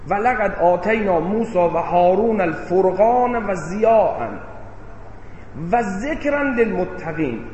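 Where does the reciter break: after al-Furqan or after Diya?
after Diya. The phrase breaks right after the word Diya. The Criterion and the Light were given to Moses and Aaron. "یعنی فرقان و ضیاء رو به موسی و هارون دادیم، ذکر رو به متقین دادیم"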